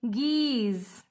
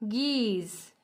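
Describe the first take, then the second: No difference in how they are said.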